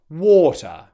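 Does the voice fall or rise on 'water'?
fall. The pitch falls on the word. The speaker has finished speaking. "I would use a falling British intonation on the word water"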